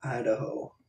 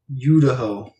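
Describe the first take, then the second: First: Said in the usual way. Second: "Idaho" begun like Utah, as YOU-da-ho; "Idaho" with a punched "you" for its first sound; Utah-Idaho blend. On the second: Shown as a demonstration.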